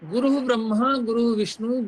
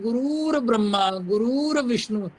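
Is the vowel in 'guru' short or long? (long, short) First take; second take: short; long. First: The vowel in guru is said short. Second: Guru is stretched into a long 'guroor'. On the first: The speaker calls it right. "बड़ा प्रसिद्ध श्लोक है" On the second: The speaker calls it wrong. "गुरूर को इसमें जरूर ले आते हैं"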